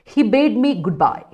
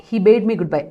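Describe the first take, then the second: First: Each word spaced out slowly for the class; slow dictation. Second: Said in the usual way. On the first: Shown as a demonstration. Teacher reading the example sentence to students, very slow.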